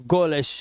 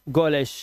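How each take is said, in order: No difference in how they are said.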